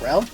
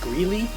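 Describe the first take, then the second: First: The name is said with one syllable. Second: The name is said with two syllables. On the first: The speaker calls it wrong. "not Grell" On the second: The speaker calls it right. "his name was Greeley"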